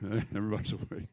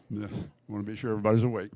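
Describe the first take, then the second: First: Quieter, laughing through the words. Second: Said in the usual way. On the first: Real, not acted. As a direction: chuckle as you repeat it. Repeats joke with a laugh.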